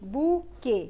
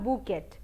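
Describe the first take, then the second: First: The word ends without a t sound. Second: The word ends with a sounded t. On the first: The speaker calls it right. "It is बूके" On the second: The speaker calls it wrong. "And not बुकेट"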